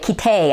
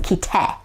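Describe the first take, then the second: First: The final vowel glides like an American diphthong. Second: The final vowel stays a pure Japanese vowel.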